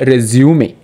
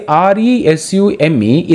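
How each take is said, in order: First: "resume" said slowly as "rez-yoo-MAY"; slow, deliberate "resume", ending in "may"; three-syllable resume. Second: "resume" said as "re-ZYOOM", no final "ay"; two-syllable resume. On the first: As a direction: sound the final e of "resume" as "ay". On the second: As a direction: end "resume" on the m, like the verb. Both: Shown as a demonstration. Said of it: "is pronounced as a".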